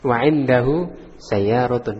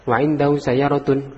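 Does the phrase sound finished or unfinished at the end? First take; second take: finished; unfinished. First: The phrase ends with a full stop. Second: The phrase ends as if more words follow. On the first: The sentence is complete. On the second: The sentence continues with more to say. "itu masih ada lagi maksudnya"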